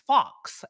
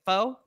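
First: The word ends with a clear 'ks' sound. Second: The word ends in a vowel, no 'ks' sound. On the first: The speaker calls it wrong. "I couldn't pronounce the word, but I called it fox" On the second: The speaker calls it right. "how do you pronounce it?"

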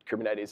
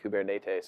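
First: It is pronounced the usual English way. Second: It is pronounced the way Greek speakers say it. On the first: The speaker calls it wrong. "We actually pronounce it wrong" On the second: The speaker calls it right. "if you're actually Greek, you pronounce it something like Kubernetes"

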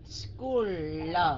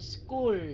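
First: The final L is exaggerated and clearly separate. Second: The final L is light and blended in. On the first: "Nói school l đi" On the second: "đừng có đọc rõ là school L nữa, mà mình chỉ đánh cái âm ra thôi"

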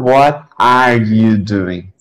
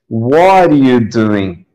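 First: Each word is said fully and separately. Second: The words are reduced and run together. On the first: This is not how people actually say it. The speaker calls it wrong. "E não" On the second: This is how people actually say it. The speaker calls it right. "A gente escuta"

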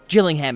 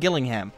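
First: It is pronounced the local British way. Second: It is pronounced the way the spelling suggests. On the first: The speaker calls it right. "is what it's supposed to be" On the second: The speaker calls it wrong. "it looks like Gillingham to me"

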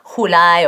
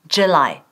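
First: The first sound is soft, not like ch. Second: The first sound is close to a ch. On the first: The speaker calls it wrong. "siempre sacamos July o Juli" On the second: The speaker calls it right. "casi como una CH"

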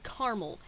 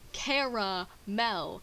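First: The word is said with two syllables. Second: The word is said with three syllables. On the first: The speaker calls it wrong. "It is not C-A-R-M-E-L. That'd be" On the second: The speaker calls it right. "it is spelled C-A-R-A-M-E-L"

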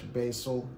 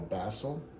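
First: The word has an ordinary, everyday pronunciation. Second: The word has a posh, upper-class pronunciation. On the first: This is the everyday way to say it. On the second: The speaker is a refined aristocrat.

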